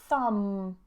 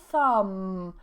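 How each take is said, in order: The two takes are said the same way.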